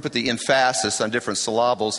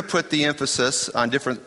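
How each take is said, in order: First: "emphasis" as em-FASS-is, "syllables" as suh-LAH-buls; comic misplaced stress. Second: Said in the usual way. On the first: Shown as a demonstration. Preacher joking about emphasis, deliberately misplaced stress. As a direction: shift the stress onto the middle of "emphasis" and "syllables". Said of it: "put the emphasis on different syllables".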